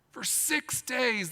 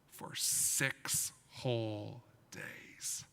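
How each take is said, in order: First: Slow, higher emphatic repeat. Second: Slow hushed whisper. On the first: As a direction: stretch out six days, higher. Dramatic repeat for children. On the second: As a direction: whisper it slowly, for effect. Dramatic retelling for children. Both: Acted.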